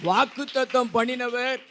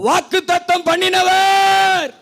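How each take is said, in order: First: Said in the usual way. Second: High shout with a long-held last word; as loud as possible. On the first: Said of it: "நான் வாக்குத்தத்தம் பண்ணினவர் அப்படி சொல்லுவேன்". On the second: Real, not acted. Preacher leading congregation's call and response, as loud as possible. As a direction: shout the call out, stretching its ending. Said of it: "எவ்வளவு சத்தமா சொல்ல முடியுமோ".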